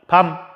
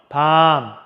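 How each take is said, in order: First: The vowel is kept short. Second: The vowel is held long. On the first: It means night. "밤 하고 짧게 발음한답니다" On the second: It means a chestnut. "길게 발음합니다"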